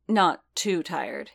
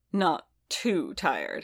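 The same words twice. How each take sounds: First: TOO leaned on in a slow "Not TOO tired"; slow "Not too tired", weight on "too"; clarifying. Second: Drawn-out "too" and "tired", each falling steeply; questioning echo. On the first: Din hedges to Boba about his tiredness, clarifying. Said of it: "he clarified". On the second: Boba echoes Din's hedge back at him, pointed echo. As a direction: echo "Not too tired" very slowly, word by word. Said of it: "he echoed". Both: A narrator's reading.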